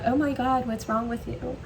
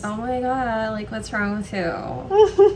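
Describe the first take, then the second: First: It sounds sincere and worried. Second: It sounds snide and mocking. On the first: The speaker truly cares what is wrong. "That sounds like I'm genuinely concerned about what's wrong with you" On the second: The speaker is mocking the listener. "when you're making a bitchy comment"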